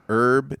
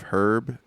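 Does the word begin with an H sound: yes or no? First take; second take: no; yes. First: The word starts without an H sound. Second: The word starts with an H sound. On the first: "in American English, we pronounce it herb" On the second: "instead of herb"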